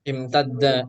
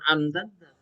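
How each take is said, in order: First: The word begins with an 'i' vowel. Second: The word begins with an 'a' vowel. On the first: The speaker calls it right. "maka harus dibaca kasroh" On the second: The speaker calls it wrong.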